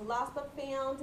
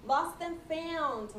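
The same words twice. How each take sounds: First: Said in the usual way. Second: "Lost and found" said slowly and higher, with "lost" stretched and falling; drawn-out announcement. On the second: Shown as a demonstration.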